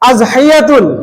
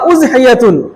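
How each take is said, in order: First: The word begins with an 'a' vowel. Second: The word begins with a 'u' vowel. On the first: "জাবার" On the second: "পেশ দিয়ে"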